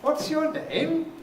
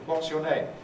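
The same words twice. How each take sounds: First: It sounds patronizing, like speaking to a child. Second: It sounds neutral and business-like, like filling a form. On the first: The listener is treated as a child or not very intelligent. "the way you would speak to a small child" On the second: It is an ordinary request for information. "for a business-like question"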